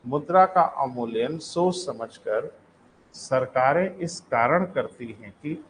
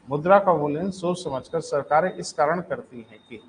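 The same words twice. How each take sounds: First: Slow, measured, with a break between phrases; slow dictation. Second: Said in the usual way. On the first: Real, not acted. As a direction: repeat slowly for note-takers. Repeats the sentence for writing.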